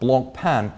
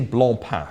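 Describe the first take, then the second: First: The name is said with English sounds. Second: The name is said with French sounds.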